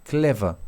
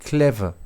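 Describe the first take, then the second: No difference in how they are said.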